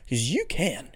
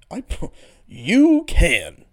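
First: Said in the usual way. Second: Slow, drawn-out words through a laugh; cracking up mid-sentence. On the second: Real, not acted. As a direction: laugh while stretching the words out. Laughing repeat.

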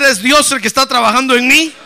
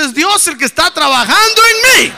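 First: Loud preacher's call to repeat; loud declaration. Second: Full-force, high-pitched rallying shout; louder shout. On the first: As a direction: declare it firmly at high volume. (declaración en voz alta para que repitan) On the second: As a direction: belt it out to rouse the congregation. (grito más recio, agudo y a todo pulmón) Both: Shown as a demonstration. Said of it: "A ver, más recio".

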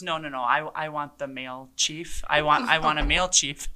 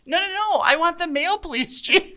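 First: A hint of a stubborn old man insisting. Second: Much higher, louder, hammed-up stubborn old man; exaggerated old man. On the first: Older resident demanding a male chief, mild insistent voice. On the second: Chief mocking the resident's demand, hammed-up and high. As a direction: ham up the grumpy resident, laughing. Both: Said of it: "the guy looks at me and he goes".

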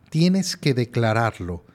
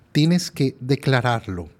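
The two takes are said the same way.

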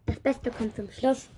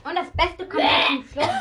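First: Said in the usual way. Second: High, loud hype for the finale; loud showy announcement. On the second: Real, not acted. Kid telling viewers the best comes last, loud showy announcement. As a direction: announce it big and high, like a showman.

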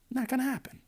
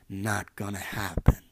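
First: Much higher, singsong; high mock repeat. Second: Said in the usual way. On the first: Shown as a demonstration. Podcaster to the girl, repeating it high and mocking. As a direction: toss it back up high.

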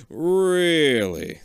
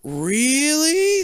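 First: A calmer slow retake of the doctor's line. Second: Long, much higher and louder "Really?"; a hammed-up drawn-out doctor. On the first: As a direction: draw it out slowly and knowingly. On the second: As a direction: stretch it way up in disbelief. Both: A narrator's reading. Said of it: "the other doctor says slowly".

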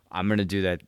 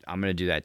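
First: Laughing. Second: Said in the usual way. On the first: Real, not acted. Laughing while announcing plan.

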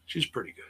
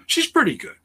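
First: Said in the usual way. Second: High, louder burst of approval; emphatic praise. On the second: Real, not acted. Host vouching for Sky Blue, high and emphatic. Praise, then quieter repeat.

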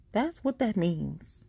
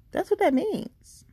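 First: Slow repeat. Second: Much higher and louder, punched; emphatic high. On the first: Host repeats the meaning for listeners, slow and deliberate. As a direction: lay it down slowly the second time. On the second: Host tells guests what being relevant means, high and loud. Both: Shown as a demonstration.

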